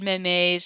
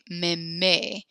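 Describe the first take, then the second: First: The final consonant sound is pronounced. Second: The final consonant sound is silent. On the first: The speaker calls it wrong. "So you said memes" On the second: The speaker calls it right. "we don't pronounce it"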